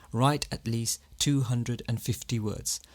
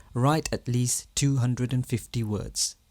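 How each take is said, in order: No difference in how they are said.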